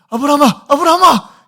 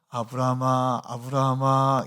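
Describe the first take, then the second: First: The name is called in an urgent, hurried way. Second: The name is called in a calm, dignified way.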